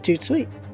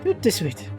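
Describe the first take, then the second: First: It is said with two syllables. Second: It is said with three syllables. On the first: This is how Americans say it. "We say toot sweet" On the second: This is the original form. "the original is toot de suite"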